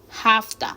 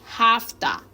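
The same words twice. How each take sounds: No difference in how they are said.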